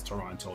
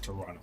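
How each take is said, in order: First: The second T is clearly pronounced. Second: The second T is dropped. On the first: This is the full form locals do not use. "No one says Toronto though. We don't, we don't pronounce the the rest of it" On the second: This is how locals actually say it. "We just call it Toronto. We don't pronounce that last T"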